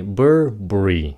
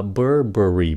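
First: "Burberry" squeezed to BUR-bree; two syllables. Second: "Burberry" in three syllables, BUR-buh-ree; slow, three syllables. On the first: Teacher shows the fast-speech form, two-syllable "Burberry". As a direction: drop the middle vowel of "Burberry". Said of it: "nói nhanh là hai âm thôi". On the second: Teacher shows the careful form, three-syllable "Burberry". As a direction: keep all three beats in "Burberry". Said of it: "Nói chậm là Burberry ba âm". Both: Shown as a demonstration.

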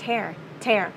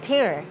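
First: "tear" pronounced like "tair"; "tair", rhyming with bear; tear as in ripping. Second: "tear" pronounced like "teer"; "teer", the teardrop word; tear as in crying. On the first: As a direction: say "tear" with an open air vowel. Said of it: "hành động mà xé toạc". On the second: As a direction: say "tear" with a long ee vowel. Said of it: "Hồi nãy nước mắt". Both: Shown as a demonstration.

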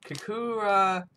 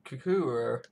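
First: Kakura sounded out slowly, high and a little louder; first uncertain take of Kakura, pitched up; high, careful try at Kakura. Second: Said in the usual way. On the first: Shown as a demonstration. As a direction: test out the word Kakura with a raised voice. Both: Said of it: "What's he even saying?".

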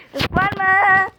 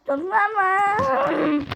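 First: Said in the usual way. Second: "Türk var mı" drawn out slowly, higher; slow stretched call. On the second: Shown as a demonstration. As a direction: stretch out "Türk var mı" like calling across a room. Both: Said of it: "Türk var mı yazayım".

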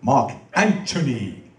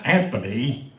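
First: Slow, stately "Anthony" with a crisp T; "Anthony" pronounced with T in place of TH; stage pronunciation of Anthony. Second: "Anthony" with a soft TH; "Anthony" with TH rather than a T; wrong pronunciation of Anthony. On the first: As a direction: say "Anthony" as AN-too-nee, drawn out. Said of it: "This is the way you say it". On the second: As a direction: say "Anthony" as AN-thuh-nee. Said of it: "not Anthony". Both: Shown as a demonstration.

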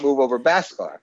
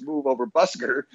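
First: BHASKAR said as BAHS-kar. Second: BUSKER said as BUS-ker; short "uh" in the first syllable of BUSKER. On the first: Repeating his slip of the title, BHASKAR said as BAHS-kar. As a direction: open "ah" in both syllables of BHASKAR. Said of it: "I realized it was Move Over Busker". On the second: Setting the song title straight, BUSKER said as BUS-ker. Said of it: "not Move Over [name]". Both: Shown as a demonstration.

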